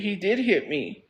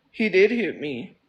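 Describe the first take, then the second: First: Said in the usual way. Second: "did" lifted and held, the whole line slowed; slow, firm insistence with "did" punched; stress on did. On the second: Real, not acted. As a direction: insist on it, lean hard into "did".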